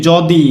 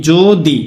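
First: যদি with open "aw", "jaw-di"; as written. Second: যদি as "jo-di" with rounded o; as spoken. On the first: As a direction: say যদি with an open first vowel. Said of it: "কিন্তু এখানে কি ছিল". (যদি-তে খোলা অ উচ্চারণ) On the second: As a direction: stretch যদি slowly, first vowel ও. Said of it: "কিন্তু এখানে কি". (যদি-কে "জো-দি" বলে উচ্চারণ) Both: Shown as a demonstration.

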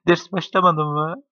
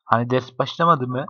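First: Higher and slower, teasing "Ders başlamadı mı?"; mock-high drawn-out question. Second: Said in the usual way. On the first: Shown as a demonstration. Friends joking about class starting, mock whiny high question. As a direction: stretch it up high like a whiny kid.

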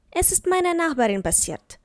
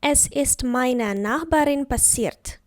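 First: Said in the usual way. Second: Slow, careful dictation of the sentence; slow example. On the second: Shown as a demonstration. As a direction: say it slowly for learners to repeat. (повільно, чітко, по словах)

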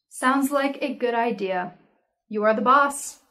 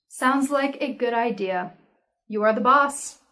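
Both takes have the same delivery.

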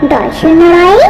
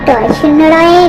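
No difference in how they are said.

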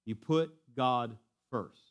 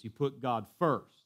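First: 「put」を強く; stress on put. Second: 「first」を強く、ゆっくり; stress on first. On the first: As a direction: hit the word put. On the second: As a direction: land hard on first. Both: Shown as a demonstration. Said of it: "Let me say it with another emphasis".

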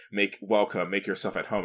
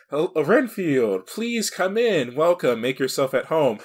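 First: Said in the usual way. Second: Drawn-out, higher-pitched welcome; swooping, over-gracious host, slowly inviting someone in; hammed-up courteous greeting, stretched at the start; Dracula. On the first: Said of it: "his doormat says". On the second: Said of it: "Dracula actually, like, surprises Renfield".

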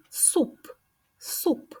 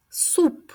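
First: "Суп" whispered, soft, with the final П puffed out; whispered demo word. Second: "Суп" spoken higher and clearly voiced, with a crisp final П; clear demo word. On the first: Speech teacher showing the final П, whispered word. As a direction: breathe "Суп" and let the last П pop. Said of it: "Звук П в кінці слова". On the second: Speech teacher to little kids, clear model word. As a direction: say "Суп" up high and clear, popping the П at the end. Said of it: "Є звук П?". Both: Shown as a demonstration.

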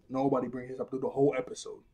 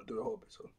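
First: Said in the usual way. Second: Repeating the point to the viewers as a voiceless whisper. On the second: Shown as a demonstration. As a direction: whisper it under the breath, no voice.

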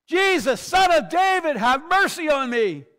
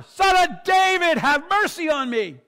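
First: Full-voiced, high desperate shout; loud, high-pitched plea over a crowd; crying out. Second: Drawn-out, very high shouted plea; huge, high desperate cry for mercy; crying out louder. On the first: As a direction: cry out loudly from the roadside for mercy. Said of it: "he starts crying out". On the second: Acted. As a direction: shout it out with all your might. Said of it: "he cries out even louder".

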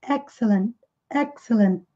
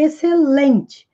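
First: "excellent" with all the emphasis on "EX"; stress on first syllable. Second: "excelente" stressed late, on "len"; Portuguese word stress. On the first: Teacher shows English stress, "excellent" stressed on its first syllable. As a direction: hit the start of "excellent", let the rest fall away. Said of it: "Lá no início da palavra já coloca toda a ênfase". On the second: Teacher contrasts Portuguese with English, stressing "excelente" on "len". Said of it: "diferente do português. Pra nós é". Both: Shown as a demonstration.

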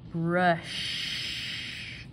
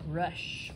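First: "Brush" with a long hissing sh; long SH ending. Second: Said in the usual way. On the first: Shown as a demonstration. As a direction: stretch the end of "Brush" like surf. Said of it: "Kinda sounds like the ocean". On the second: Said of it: "We had our S H again".

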